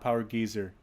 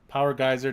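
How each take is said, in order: First: The first vowel of geyser sounds like 'ee'. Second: The first vowel of geyser sounds like 'eye'. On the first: The speaker calls it wrong. "not power geezer" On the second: The speaker calls it right.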